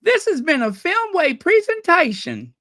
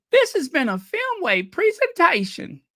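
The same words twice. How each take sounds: First: High, louder announcer line; mock last words. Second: High announcer line; mock last words. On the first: Joking about an actress's last words, high and bright announcer line. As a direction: chirp it out like a closing credit. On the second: Repeating the joke to viewers, high mock announcer. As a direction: say it again, high and sing-song. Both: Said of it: "Ellie Mae's last words".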